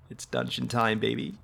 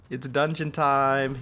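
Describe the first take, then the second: First: Said in the usual way. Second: Hyped announcer. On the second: Shown as a demonstration. Gamer hyping viewers for the dungeon, announcer style. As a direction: belt "It's dungeon time" like a ring announcer.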